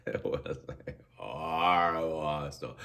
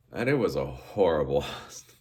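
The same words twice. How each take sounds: First: Horrible dragged out and stressed; slow emphatic repeat. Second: A laugh breaking into horrible hostel. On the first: Traveller recalling the hostel, slow and emphatic. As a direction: lean on horrible, slower the second time. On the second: Traveller laughing at the memory of the hostel. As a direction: chuckle on the word hostel. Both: Real, not acted.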